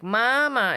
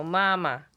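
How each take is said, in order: First: "mama" drawn out with a pitch swing; "mama" with a marked, slow tone change; accented tone. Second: "mama" said on a flat, level tone; "mama" with no rise or dip. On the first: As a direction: stretch "mama" and bend its tone. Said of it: "if I do, like, an accent". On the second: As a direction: keep both syllables of "mama" level. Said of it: "where it's just the flat". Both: Shown as a demonstration.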